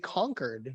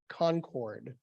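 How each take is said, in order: First: It is said the way local people say it. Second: It is said the way visitors say it. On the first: The speaker belongs to the town. The speaker calls it right. "I had to learn how to say Concord" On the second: The speaker is a visitor to the town. The speaker calls it wrong. "You can always tell an out-of-towner because they say"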